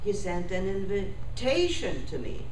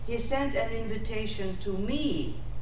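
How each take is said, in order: First: The stress falls on the word invitation. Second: The stress falls on the final word, me. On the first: It is a plain statement that an invitation was sent. "tation is very important, not me" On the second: It was sent to me, not to you. "it means not to you"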